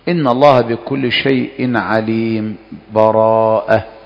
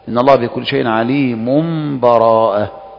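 First: A brief silence without breath before the last word. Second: The phrases run together with no break at all. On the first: "والوجه الثاني السكت ... فإنك تسكت من غير تنفس" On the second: "والوجه الثالث الوصل"

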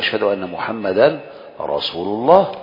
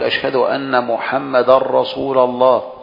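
First: Muhammad ends with an added -an sound. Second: Muhammad ends without an added -an sound. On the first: The sentence is a complete statement. The speaker calls it right. "هذا مستقيم" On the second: The sentence seems unfinished, missing its predicate. The speaker calls it wrong. "فمثلا ما يقول"

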